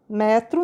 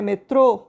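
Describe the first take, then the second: First: "Metro" stressed on ME, open e; "Metro" with a weak ending; stress on first syllable. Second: "metrô" stressed on the final TRÔ; "metrô" with the weight at the end; stress on final syllable. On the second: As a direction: land on a closed, strong TRÔ in "metrô". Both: Shown as a demonstration. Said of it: "você viu que mudou o som".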